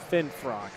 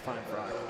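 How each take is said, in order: First: The first syllable sounds like 'fin'. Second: The first syllable sounds like 'fine'. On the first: The speaker calls it right. "it is Finfrock" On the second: The speaker calls it wrong. "not Feinfrock"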